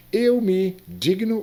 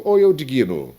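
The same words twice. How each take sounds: First: "digno" with force on the first syllable, DIG-no; "digno" said DIG-no, strong opening vowel; stress on the I of digno. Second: "digno" said as di-GUI-no; "digno" stretched to three syllables, stress on GUI; mispronounced digno with added vowel. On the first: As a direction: hit the I in "digno", keep g and n together. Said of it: "tem que dar força no i". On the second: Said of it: "não digno". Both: Shown as a demonstration.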